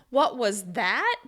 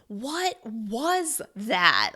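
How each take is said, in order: First: The stress falls on the word that. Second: Every word is stressed separately. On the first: You mean that thing rather than another. "you're going to stress the word that" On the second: You are shocked and cannot believe it. "you're going to stress each word individually"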